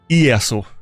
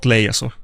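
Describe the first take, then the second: First: The name begins with a vowel sound. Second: The name begins with an L sound. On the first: The speaker calls it right. "I guess it's I" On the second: The speaker calls it wrong. "not Leiasu"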